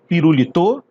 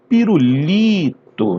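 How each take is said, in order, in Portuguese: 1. A tônica cai em uma sílaba diferente da terceira. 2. A tônica cai na terceira sílaba, li. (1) "Não, né?" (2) "Vai ser o li do pirulito"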